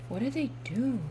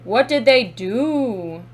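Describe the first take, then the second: First: Soft, wondering question; hushed repeat. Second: Loud, slow, drawn-out question; loud demand. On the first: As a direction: ask it softly, voice dropped in volume. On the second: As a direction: demand an answer, stretching each word. Demands to know what happened. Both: Real, not acted.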